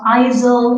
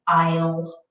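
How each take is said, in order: First: An s sound is pronounced in the word. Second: No s sound is pronounced in the word. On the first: The speaker calls it wrong. "we have a silent letter again. So it's not" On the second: The speaker calls it right. "it's aisle"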